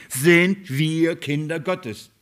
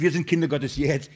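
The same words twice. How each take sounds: First: Sind wir Kinder Gottes, very slow and a little louder, with sind punched hardest; preacher underlining sind wir Kinder Gottes; slow emphatic stress. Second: Said in the usual way. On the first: Shown as a demonstration. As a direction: lean hard on sind and spell out every word. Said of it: "ich betone". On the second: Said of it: "Er sagt nicht".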